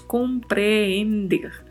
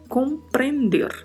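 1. Tem uma vogal dupla, com-pre-en-der. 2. Tem uma vogal simples, com-pren-der. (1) "como no português que falamos compreender" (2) "é compreender, com apenas um E"

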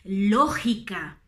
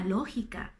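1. La g è un suono forte, gutturale. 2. La g è un suono morbido, leggero e soffiato. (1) "in maniera molto forte come si usa ad esempio in Spagna" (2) "Puede ser un sonido más suave pronunciado, por ejemplo, la latinoamericana"

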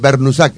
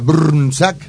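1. Se inserta una vocal para romper el grupo de consonantes. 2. Las consonantes se agrupan con menos vocales. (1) "pero se pronuncia Bernusac, es así" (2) "Y allá en Croacia, ¿cómo sería?"

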